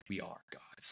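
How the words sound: It sounds tired and frustrated.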